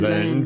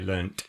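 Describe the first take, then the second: First: The word ends with a soft d sound. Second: The word ends with a crisp t sound. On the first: This is the American form. "Americans say" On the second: This is the speakers' own, non-American form. "We say learnt"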